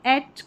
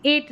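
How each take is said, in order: First: एट as short, open 'ett'; short-vowel ending. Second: एट with long 'ay', like eight; mistaken long vowel. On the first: Teacher gives the ETTE reading, एट as short 'ett'. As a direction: say एट like the end of cassette. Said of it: "एट करके pronounce करेंगे". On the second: Teacher rejects the misreading, एट as long 'ayt'. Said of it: "एट नहीं". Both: Shown as a demonstration.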